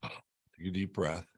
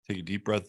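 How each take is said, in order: First: Soft, slow calming voice on "Take a deep breath". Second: Said in the usual way. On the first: Shown as a demonstration. Host calms viewers before the Grand Cross, soft and slow. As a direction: breathe it out slowly to soothe.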